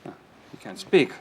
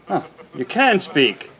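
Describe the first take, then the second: First: Said in the usual way. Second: Can pushed up with a laugh; amused stress on can. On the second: Acted. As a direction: catch her out by hitting can.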